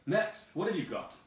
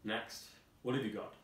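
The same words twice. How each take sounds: First: Much higher, loud squawking call; head guard calling the next item. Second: Lightly voiced head guard. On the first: Acted. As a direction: bark for the next one shrilly. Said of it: "The head guard says". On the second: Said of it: "Head guard".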